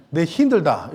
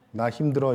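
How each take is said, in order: First: 내 힘들다 in a light Gyeongsang dialect tune; Gyeongsang accent. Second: Said in the usual way. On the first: Shown as a demonstration. Pastor demoing a Gyeongsang dialect phrase to the church. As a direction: try a Gyeongsang dialect line, a bit hammed. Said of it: "경상도 버전으로 하면". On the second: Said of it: "이것을 경상도 버전으로 하면".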